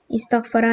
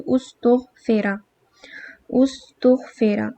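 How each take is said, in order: First: استغفرا said as istaghfara, i and a vowels; استغفرا as is-tagh-fa-ra; active form. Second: استغفرا drawn out slowly as ustughfira, u vowels then i; استغفرا spoken slowly, us-tugh-fi-ra; passive form. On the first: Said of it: "او او او کی sound آ جائے گی". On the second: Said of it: "ہمیشہ او ای کی sound آئے گی". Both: Shown as a demonstration.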